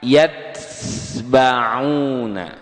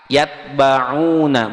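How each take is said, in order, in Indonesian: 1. Bunyi t mengalir keluar bersama hembusan napas. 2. Bunyi t ditahan rapat tanpa hembusan napas. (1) "bukan yatsba'una" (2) "Kayak ta"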